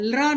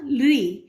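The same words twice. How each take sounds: First: लृ said as "lra", with an a sound; wrong a-ending pronunciation. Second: लृ said as "lree", with an i sound; correct i-ending pronunciation. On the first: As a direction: end लृ on "aa" instead of "ee". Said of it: "नहीं बोला". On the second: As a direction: end लृ on a long "ee". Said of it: "ये सही उच्चारण है". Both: Shown as a demonstration.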